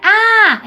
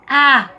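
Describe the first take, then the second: First: The word is said higher and with force. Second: The word is said lower and without force. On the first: The speaker calls it wrong. "Não é a" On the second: The speaker calls it right. "é a"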